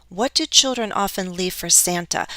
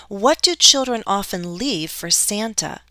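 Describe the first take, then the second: The two takes are said the same way.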